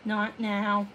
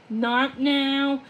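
First: Hushed, frightened gasp of a plea; gasping fear. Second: Pressing, desperate repeat of the plea; urgent plea. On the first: Odette begging the clouds to spare the moon, hushed and frightened. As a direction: breathe it out in a scared hush. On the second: Odette pleading harder as the cloud nudges the moon, urgent and desperate. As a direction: push it out as the fear grows. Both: Acted. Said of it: "Odette gasped".

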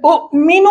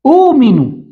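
First: أؤمن with short u' cut by a glottal stop, high rising end; original two-hamza form. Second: أؤمن said with a long smooth oo, no stop, falling; changed form with waw. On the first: Teacher showing the word before the change, segmented sounding-out. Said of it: "إذا ستقلب الثانية واو". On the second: Teacher answering what we will say, stretched pronunciation. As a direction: stretch the opening to oo in أؤمن, higher then falling. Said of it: "سنقول ماذا؟". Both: Shown as a demonstration.

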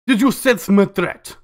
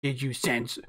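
First: Put-on slow, menacing Russian accent. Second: Said in the usual way. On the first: A rival operator taunting Lan, in a slow Russian accent. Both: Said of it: "freaking Russian now".

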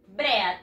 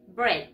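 First: "Bread" read as spelled, "breh-ad"; "Bread" with Spanish vowels, bre-ad. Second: "bread" as one syllable, "bred"; "bread" in one short syllable rhyming with red; English pronunciation. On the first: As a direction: sound out both vowels in "Bread". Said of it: "Así se escribe. ¿Y se pronuncia así?". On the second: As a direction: say "bread" with a silent a. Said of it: "En inglés se dice". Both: Shown as a demonstration.

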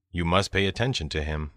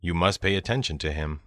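No difference in how they are said.

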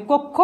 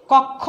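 First: কক্ষ with rounded o, "kok-kho"; as pronounced, closed o. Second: কক্ষ with open ɔ, "kawk-kho"; as written, open vowel. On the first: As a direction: say কক্ষ with first vowel closed to o. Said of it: "উচ্চারণ হবে". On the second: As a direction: say কক্ষ as spelt, first vowel wide. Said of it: "লিখেছি". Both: Shown as a demonstration.

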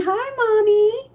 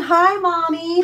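First: High, slow whimpering pet; crying pet voice. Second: A hint of a pet greeting; lightly voiced pets. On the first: Pretend. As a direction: whine it like a cat begging its owner. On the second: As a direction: say it for the pets, only a little lifted. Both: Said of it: "Everyone's saying".

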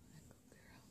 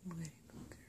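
First: Breathy whispered praise. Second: Said in the usual way. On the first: Real, not acted. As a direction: whisper it to the pet. Repeated pet praise.

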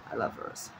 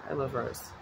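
First: Breathy whisper to herself. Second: Said in the usual way. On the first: Shown as a demonstration. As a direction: whisper it like a secret. Repeats phrase as a whisper.

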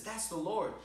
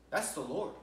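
First: Higher, with a lift on Lord; excited recognition. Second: Said in the usual way. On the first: Acted. Peter in the boat recognizes Jesus, excited and higher. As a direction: exclaim it, suddenly sure.

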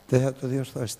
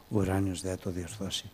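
First: Incredulous. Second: Said in the usual way. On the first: Shown as a demonstration. Preacher mocking the doubt to his congregation, incredulous. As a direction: scoff at «Δεν θα το διορθώσει» as absurd. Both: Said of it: "τι λέτε".

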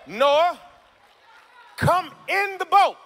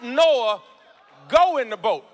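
First: High, slow, shouted preacher call; shouted, stretched. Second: Said in the usual way. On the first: Shown as a demonstration.

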